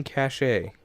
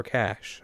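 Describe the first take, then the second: First: Cache said as two syllables, "ka-SHAY"; cache ending in a long "ay"; alternate pronunciation. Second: Cache said as one syllable, like "cash"; cache with a silent e; alternate pronunciation. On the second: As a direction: say cache to rhyme with dash. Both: Shown as a demonstration. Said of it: "I don't know how that's pronounced".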